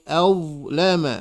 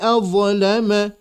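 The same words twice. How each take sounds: First: The consonant flows smoothly without a bounce. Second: The consonant is bounced with a small echo. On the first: The speaker calls it right. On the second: The speaker calls it wrong. "tidak boleh"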